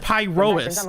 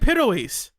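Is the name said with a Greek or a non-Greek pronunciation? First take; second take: non-Greek; Greek. First: The name is said with a non-Greek pronunciation. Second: The name is said with a Greek pronunciation. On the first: This is how a character says it. The speaker calls it wrong. "But Bell says Pyrois" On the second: This is the intended pronunciation. The speaker calls it right. "They're saying like the actual Greek pronunciation"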